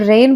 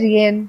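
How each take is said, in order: First: The word is said as a single syllable. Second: The word is said with an extra middle sound. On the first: The speaker calls it right. "इसमें जी silent है" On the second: The speaker calls it wrong. "इसे आप बोल सकते हैं रियन"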